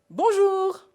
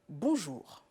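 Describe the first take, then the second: First: It is said at a high pitch. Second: It is said at a low pitch.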